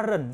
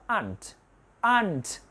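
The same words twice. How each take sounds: First: "aren't" as two syllables with a clear R, "a-ren". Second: "aren't" shortened to one syllable like "ant"; more contracted. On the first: Teacher shows how some countries say "aren't", clearly articulated. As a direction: sound out the R in "aren't" fully. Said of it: "đọc là aren't rất là rõ". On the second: Teacher shows students the shortened "aren't", like "ant". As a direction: drop the R and say "aren't" like "aunt". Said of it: "nhiều người nó tắt nữa thì đọc là". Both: Shown as a demonstration.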